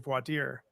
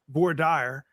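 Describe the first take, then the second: First: It is said with the standard pronunciation. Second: It is said the way a Texas judge said it. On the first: This is how the term is really said. The speaker calls it right. "but it's really voir dire" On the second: Someone else said it this way. The speaker calls it wrong. "as a judge in Texas once called it"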